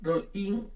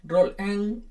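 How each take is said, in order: First: The name is pronounced with a Spanish accent. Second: The name is pronounced with an English accent. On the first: "español" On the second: "inglés"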